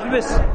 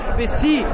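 First: The word ends in a short i vowel. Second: The word ends in a long i vowel. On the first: A man is being addressed. "احبس بالكسر" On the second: A woman is being addressed. "احبسي بالياء"

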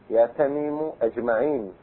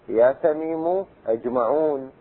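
First: The last word ends in -in. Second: The last word ends in -un. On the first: The adjective follows the vocative's grammatical position. "على محله" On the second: The adjective follows the vocative's surface form. "على لفظ المنادى المبني"

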